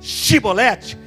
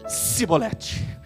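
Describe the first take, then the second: First: It is said the way the Gileadites said it. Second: It is said the way the Ephraimites said it. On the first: This is the password the guards demanded. The speaker calls it right. "na hora de dizer Shibolete" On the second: The speaker's accent gives him away as an outsider. The speaker calls it wrong. "Mas como o sotaque deles, querido, não era o sotaque de Gileade"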